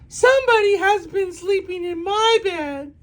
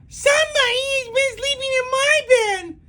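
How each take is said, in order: First: Mama Bear's voice is medium and grumbling. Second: Baby Bear's voice is small, shrill and loud.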